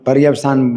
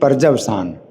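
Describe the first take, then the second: First: The middle consonant is pronounced as y. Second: The middle consonant is pronounced as j. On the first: The speaker calls it wrong. "हम पर्यवसान बोल रहे हैं ना" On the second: The speaker calls it right. "ये होना चाहिए पर्जवसान"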